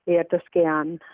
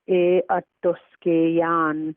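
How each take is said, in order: First: The phrase is said quickly and fluently. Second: The phrase is said slowly and carefully. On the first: "the fluent pronunciation" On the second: "the slow pronunciation"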